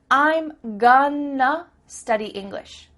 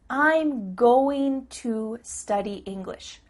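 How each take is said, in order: First: 'Going to' is reduced to 'gonna'. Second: 'Going to' is said as two full words.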